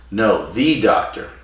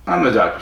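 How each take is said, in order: First: Slow, "the" drawn out as "thee" for emphasis; stress on THE. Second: Said in the usual way. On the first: Retold or imitated. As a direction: lean hard on "the", saying it "thee". Retold correction stressing the article.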